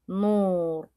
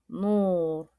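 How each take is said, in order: No difference in how they are said.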